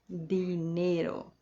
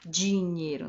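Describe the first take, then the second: First: The D is plain, with no hiss. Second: The D is hissy, sounding like 'dj'. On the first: The speaker calls it right. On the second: The speaker calls it wrong.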